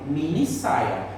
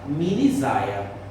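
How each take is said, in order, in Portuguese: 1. A consoante do meio é um som de s surdo. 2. A consoante do meio é um som de z sonoro. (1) "Para que a gente fale mini saia" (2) "o S tem som de Z. Então ia ficar minisaia"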